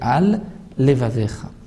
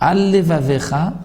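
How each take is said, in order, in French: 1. Deux sons L distincts sont prononcés entre les mots. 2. Les deux sons L se fondent en un seul L. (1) "Il y a deux lamed" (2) "ne prononcer qu'un seul lamed"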